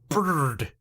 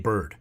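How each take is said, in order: First: The er sound is hard, not soft. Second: The er sound is soft. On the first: This is how a Spanish speaker says it. The speaker calls it wrong. "She doesn't know how to do the er sound softly" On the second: This is how a native English speaker says it. The speaker calls it right. "she can't say bird"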